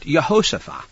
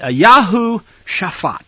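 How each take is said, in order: First: Said in the usual way. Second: "Yahu Shaphat" said slowly as yah-HOO shah-FAHT; "Yahu Shaphat" in slow Hebrew form; Hebrew pronunciation. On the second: Shown as a demonstration. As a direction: spell out "Yahu Shaphat" in careful Hebrew sounds, ah vowels throughout. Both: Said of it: "That's the name in Hebrew".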